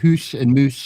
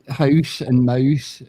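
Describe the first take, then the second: First: The vowel is the 'oo' sound. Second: The vowel is the 'ow' sound.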